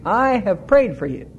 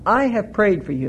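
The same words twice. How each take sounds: First: "prayed" punched, "I" left light; stress on prayed. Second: "I" leaned on, the rest falling away; stress on I. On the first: Preacher reading Jesus' words to Peter, stress on "prayed". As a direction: hit the word "prayed". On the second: Preacher reading Jesus' words to Peter, stress on "I". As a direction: hit the word "I" as the one who prays. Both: Shown as a demonstration. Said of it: "It's emphatic here in the Greek".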